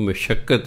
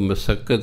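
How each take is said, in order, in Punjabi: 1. ਇਹ mashakkat ਵਾਂਗ ਕਿਹਾ ਜਾਂਦਾ ਹੈ, sh ਅਤੇ ਲੰਮੇ k ਨਾਲ। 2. ਇਹ masakkat ਵਾਂਗ ਕਿਹਾ ਜਾਂਦਾ ਹੈ, s ਅਤੇ ਲੰਮੇ k ਨਾਲ। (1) "ਉਹ ਮਸ਼ੱਕਤ ਹੈ" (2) "ਉਹ ਮਸੱਕਤ ਨਹੀਂ ਹੈ"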